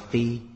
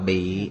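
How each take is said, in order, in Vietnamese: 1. Nó bắt đầu bằng f và có thanh ngang. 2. Nó bắt đầu bằng b và có thanh huyền. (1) "mà đọc là phi" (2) "không đọc là bị"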